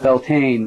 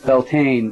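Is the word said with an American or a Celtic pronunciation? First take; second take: American; American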